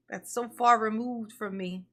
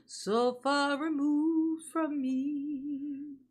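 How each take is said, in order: First: Said in the usual way. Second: With a gasp, each word stretched very slowly; dramatic slow drawl. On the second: Shown as a demonstration. Streamer repeats her line to chat, gasping and drawn out very slowly. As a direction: drag it out for melodrama.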